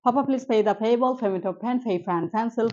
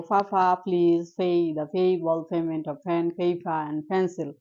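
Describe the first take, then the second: First: ফাফা, please run through at natural speed; normal speed practice. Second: Slow motion practice. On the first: Teacher drilling the class at normal speed. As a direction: rattle it off as in normal talk. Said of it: "পরে আমরা এভাবে practice করব". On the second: Teacher drilling the class in slow motion. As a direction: stretch every word in slow motion. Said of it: "প্রথমে আমরা একটু slow মোশনে practice করব". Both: Shown as a demonstration.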